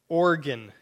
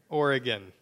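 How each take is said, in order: First: The name is said with two syllables. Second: The name is said with three syllables. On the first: The speaker calls it wrong. "I'm probably saying it wrong too" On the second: The speaker calls it right. "Got to have that E in there"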